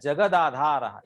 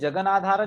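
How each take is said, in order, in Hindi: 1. जोड़ने वाला व्यंजन सादा 'd' है। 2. जोड़ने वाला व्यंजन अनुनासिक 'n' है। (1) "ये सही है" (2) "वो अनुनासिकत्व था"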